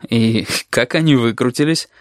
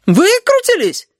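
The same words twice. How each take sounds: First: Said in the usual way. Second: Very high, drawn-out incredulous question; amazed echo. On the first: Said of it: "не сумел сдержать улыбку". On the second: A narrator's reading. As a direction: squeal it back in disbelief. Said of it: "изумился ящер". (изумлённо, высоким голосом)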